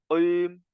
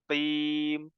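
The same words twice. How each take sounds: First: The q sound is made too deep in the throat. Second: The q sound is moderate, neither breathy nor deep. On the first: The speaker calls it wrong. "qafnya terlalu dalam" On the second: The speaker calls it right. "Yang betul"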